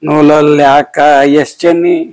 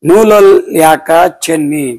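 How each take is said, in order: First: An extra 'es' is spoken before 'chenni'. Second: The vowel of 'ka' is drawn out extra long. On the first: The speaker calls it wrong. "ಎಸ್ ಚೆನ್ನಿ ಮಾಡಕ್ ಬಿಟ್ಟಿದ್ರು" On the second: The speaker calls it right. "ಕ ಅನ್ನೋದು ದೀರ್ಘ ಸ್ವರವನ್ನು ಮೀರಿದ್ದು, ಅದು ಪ್ಲುತ ಸ್ವರ"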